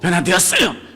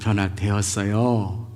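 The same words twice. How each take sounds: First: The ending is short and sounds harsh. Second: The ending is drawn out long and soft. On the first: It sounds frightening to the listener. The speaker calls it wrong. "이게 아니에요. 무서워요" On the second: It sounds gentle and friendly. The speaker calls it right. "뒤를 어떻게 해요? 길게 부드럽게"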